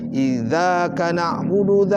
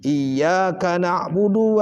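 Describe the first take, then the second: First: The word begins with a z-like sound. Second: The word begins with a doubled y sound. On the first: The speaker calls it wrong. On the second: The speaker calls it right.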